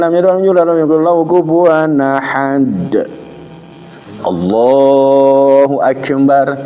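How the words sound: There is a pause before Allahu akbar.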